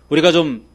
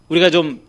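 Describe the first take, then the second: No difference in how they are said.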